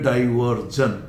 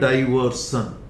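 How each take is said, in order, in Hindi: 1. आखिरी अक्षर 'zh' ध्वनि के साथ बोला जाता है। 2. आखिरी अक्षर 'sh' ध्वनि के साथ बोला जाता है। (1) "लेकिन अमेरिकन में" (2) "ब्रिटिश में तो है"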